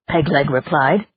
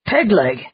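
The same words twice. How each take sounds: First: Said in the usual way. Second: Pegleg called out with a falling snap; surprised exclaim. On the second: Acted. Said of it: "exclaimed Burke".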